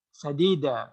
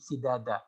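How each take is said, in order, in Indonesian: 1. Vokalnya berurutan a, lalu i, lalu a. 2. Vokalnya berurutan i, lalu a, lalu a. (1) "kalau dibaca sadida yang benar" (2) "Itu kalau dibaca si, sidada"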